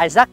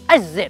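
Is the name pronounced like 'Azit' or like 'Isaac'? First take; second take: Isaac; Azit. First: The name is pronounced like 'Isaac'. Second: The name is pronounced like 'Azit'. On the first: This is how most people usually say the name. The speaker calls it wrong. "mọi người hay gọi là Isaac" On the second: This follows the name's phonetic transcription. The speaker calls it right. "cái từ đó đọc đúng phiên âm nó là Azit"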